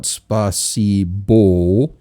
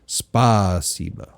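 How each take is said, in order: First: The final vowel sounds like 'o'. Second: The final vowel sounds like 'a'. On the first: The speaker calls it wrong. "it's not spasibo" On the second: The speaker calls it right. "It's spasiba because the a is it's is accented"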